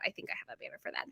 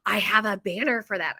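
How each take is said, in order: First: Quick, whispered note to self; whispered aside. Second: Said in the usual way. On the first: Real, not acted. Shop owner checking to herself for the banner, whispered aside. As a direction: whisper it fast under your breath.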